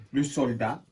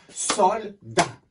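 First: Said in the usual way. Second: "Soldat" split into two separate beats; syllable by syllable. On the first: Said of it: "il a deux syllabes". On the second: Shown as a demonstration. Teacher shows pupils how to tap a word, syllable by syllable. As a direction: clap out "Soldat" with a gap between Sol and dat. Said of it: "On va le taper".

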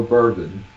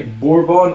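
First: "bourbon" as BUR-bun; second option. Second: "bourbon" as BOR-bon; first option. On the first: Checking Mum's answer, "bourbon" as BUR-bun. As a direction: say "bourbon" with a short, unstressed ending. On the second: Checking Mum's answer, "bourbon" as BOR-bon. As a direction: say "bourbon" with a full BON ending. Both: Shown as a demonstration. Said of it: "Do you say bourbon or bourbon".

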